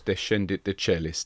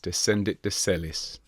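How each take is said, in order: First: One of the S sounds is missing. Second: Both S sounds are clearly pronounced. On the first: The speaker calls it wrong. "Not Descendit Decellis" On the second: The speaker calls it right. "Both S sounds"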